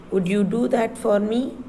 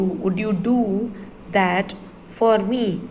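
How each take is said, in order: First: Said in the usual way. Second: Slow, careful word-by-word model read. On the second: Shown as a demonstration. Teacher modelling the sentence slowly for the class. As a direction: read it slowly so children can follow.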